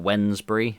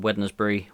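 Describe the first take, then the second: First: The d sound in the name is silent. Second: The d sound in the name is pronounced. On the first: The speaker calls it right. "I think someone said that's how you pronounce it" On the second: The speaker calls it wrong. "Got a D in it, so I know you don't uh, pronounce Wednesday as Wednesday, but nah. I like to be an arse"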